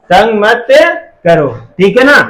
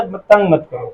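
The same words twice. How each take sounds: First: Said in the usual way. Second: Softer, gentle plea; said lovingly. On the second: Shown as a demonstration. Teacher shows the loving advice version, softly. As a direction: ask it softly and kindly, not as an order. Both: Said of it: "या बहुत प्यार से बोलेगा".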